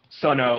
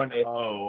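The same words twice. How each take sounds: First: The final O is short and clipped. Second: The final O is long and drawn out. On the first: The speaker calls it wrong. "I mispronounced that" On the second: The speaker calls it right. "O, like drawn out, right?"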